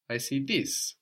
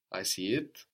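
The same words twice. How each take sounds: First: "this" given emphatic weight; stress on THIS. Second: Said in the usual way. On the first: Shown as a demonstration. Teacher contrasting this with it, stress on "this". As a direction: make "this" stand out at the end. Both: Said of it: "makes it a little more emphatic".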